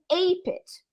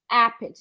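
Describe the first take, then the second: First: The first vowel is a gliding diphthong. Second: The first vowel is a single open vowel. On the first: The speaker calls it wrong. "você não vai poder pronunciar como ape it" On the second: The speaker calls it right. "a pronúncia é A, A. Não é A nem E, é algo no meio"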